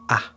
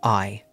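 First: The vowel is reduced to a short 'ah'. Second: The vowel is a full 'eye' diphthong. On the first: "sometimes it's not pronounced I, it's pronounced ah" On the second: "it's the word I"

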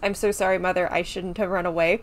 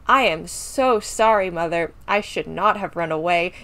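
First: The line is read plainly, without exaggeration. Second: The line is delivered in an exaggerated, theatrical way. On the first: "the line is" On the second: "I'm going full camp"

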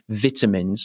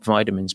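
First: The word is said the British way. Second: The word is said the American way. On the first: The speaker calls it right. "I can say it because I'm with you" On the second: The speaker calls it wrong. "not vitamins"

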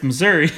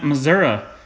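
First: The word ends with an 'ee' sound. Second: The word ends with an 'uh' sound. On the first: The speaker calls it right. "Is there's no A whatsoever. It's Missouri" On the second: The speaker calls it wrong. "you've had people from Missouri calling it Missouri"

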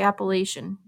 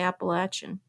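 First: It is pronounced the Illinois way. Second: It is pronounced the North Carolina way. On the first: "here in Illinois, we say Appalachian" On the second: "where Matt's from in North Carolina, they say Appalachian"

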